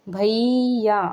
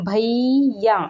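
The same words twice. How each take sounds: First: Said in the usual way. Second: भैया called out with the final आ drawn out long; long-distance call. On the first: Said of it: "लेके देखो नाम". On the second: Shown as a demonstration. Teacher calling out to a brother far across the field. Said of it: "दूर खड़ा है भैया ... कैसे बुलाएंगे".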